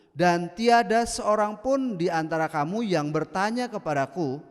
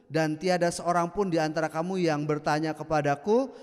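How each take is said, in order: The two takes are said the same way.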